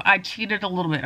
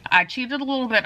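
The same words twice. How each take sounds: First: Talking while bent over; hunched over. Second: Cramped, bent-over voice; hunched over. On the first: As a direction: speak folded over, cramped. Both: Real, not acted. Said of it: "I'm all hunched over here".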